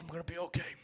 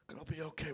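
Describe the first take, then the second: First: Softer, fading reassurance to himself; hushed mock pep talk; mock self-comforting. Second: Much softer, barely there repeat; fading mock comfort. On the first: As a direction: talk yourself down quietly, half-joking. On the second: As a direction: let it trail off to a near hush.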